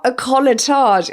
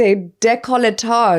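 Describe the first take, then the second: First: "colletage" said without its first syllable; high-pitched mock of the wrong "colletage", missing the "dé"; mispronunciation demo. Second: "décolletage" with the opening "dé" stressed in full; high, insistent "day-coll-uh-tahzh" for "décolletage"; corrected pronunciation. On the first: Correcting co-host's mistaken word, mispronunciation demo. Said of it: "It's not a colletage". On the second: Correcting co-host's word, pronunciation of "décolletage" with its "dé". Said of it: "it's a décolletage". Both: Shown as a demonstration.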